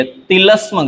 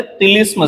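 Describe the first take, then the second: First: तिलस्म with a in the middle, ti-lasm; wrong pronunciation. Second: तिलिस्म with i in the middle, ti-lism; correct pronunciation. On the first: Teacher showing the mistake, तिलस्म said as ti-lasm. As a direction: say तिलस्म as tilasm. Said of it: "गलत है". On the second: Teacher correcting it, तिलिस्म said as ti-lism. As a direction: say तिलिस्म as tilism. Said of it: "सही है". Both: Shown as a demonstration.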